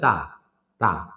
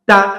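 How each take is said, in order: First: The syllable is soft, without a sharp pulse. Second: The syllable is hard, released in a sharp pulse. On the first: The speaker calls it wrong. "তাহলে এটা শক্ত হইল না" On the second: The speaker calls it right. "শক্ত হবে তা, মানে একটু দৌড়ে ছেড়ে দেওয়া, পালস করে"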